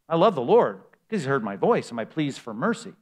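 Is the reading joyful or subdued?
joyful. It is read with an excited, joyful tone. The speaker is glad because of what was done. "I can say it like that because I want to emphasize in the first time I read that verse that great sense of, wow"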